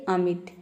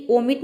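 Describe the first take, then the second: First: "अमिट" opening on a short unrounded A; short A-sound reading. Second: "ओमिट" opening on a round O vowel; wrong O-sound reading. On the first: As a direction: say "अमिट" starting with an "uh" vowel. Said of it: "ये होता है अमिट". ("अमिट", शुरू में छोटे अ की ध्वनि) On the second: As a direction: say "ओमिट" with O as in "open". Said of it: "ओमिट नहीं होता है". ("ओमिट", शुरू में गोल ओ की ध्वनि) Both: Shown as a demonstration.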